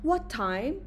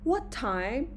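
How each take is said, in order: First: The voice rises at the end. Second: The same.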